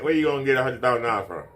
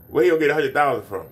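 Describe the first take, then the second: First: Said in the usual way. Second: Incredulous challenge. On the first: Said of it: "repeats the question". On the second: Retold or imitated. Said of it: "And I'm like".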